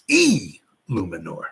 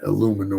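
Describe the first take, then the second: First: The name begins with a clear, separate 'ee' sound. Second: The name begins with a short 'ill' sound. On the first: The speaker calls it right. "enunciate the E" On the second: The speaker calls it wrong. "It's not Illuminor or nothing like that"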